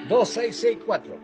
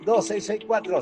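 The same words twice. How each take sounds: First: The number is said slowly. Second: The number is said fast.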